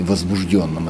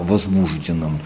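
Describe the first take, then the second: First: "возбуждённом" stressed on ДЁН; stress variant. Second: "возбужденном" stressed on БУЖ; stress variant. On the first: Linguist asks about the variant, stress on ДЁН in "возбуждённом". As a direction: stress the third syllable of "возбуждённом", with ё. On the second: Linguist asks about the variant, stress on БУЖ in "возбужденном". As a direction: stress the second syllable of "возбужденном". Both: Shown as a demonstration. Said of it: "этом варианте".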